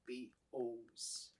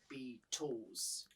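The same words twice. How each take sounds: First: The middle T sound is not heard. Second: The middle T sound is clearly pronounced. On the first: "they don't really sound the T, or you can't hear hear the T" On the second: "instead of Beatles"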